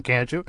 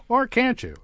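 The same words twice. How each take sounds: First: Said in the usual way. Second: Or jumps high, then falls on you; stress on OR. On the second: Shown as a demonstration. Host teasing listeners, stress on Or. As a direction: push Or up high, as a playful twist.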